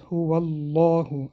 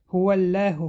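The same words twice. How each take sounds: First: The l sound is heavy and full. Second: The l sound is thin and light. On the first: The speaker calls it right. "لام کلمه الله غوث خوانده میشود" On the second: The speaker calls it wrong. "خطا است"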